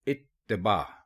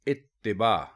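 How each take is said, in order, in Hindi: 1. t ध्वनि के बाद 'i' स्वर है। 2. t ध्वनि के बाद 'i' स्वर है।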